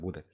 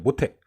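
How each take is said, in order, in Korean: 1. 중간 자음은 부드러운 d 소리예요. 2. 중간 자음은 거센 t 소리예요. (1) "모대라고 하죠" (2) "모태를 뭐라고 하죠?"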